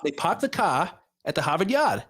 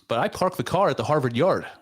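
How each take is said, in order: First: It is said in a Boston accent. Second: It is said in a general American accent.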